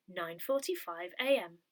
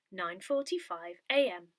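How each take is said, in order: Both takes have the same delivery.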